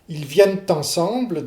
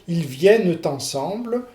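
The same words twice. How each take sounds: First: The t links, but the final e is dropped. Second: Both the final e and the t are heard. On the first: "vous apocopez le, le E, mais ... vous prononcez le T de liaison" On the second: "vous prononcez le, le E caduc et le T de, de liaison"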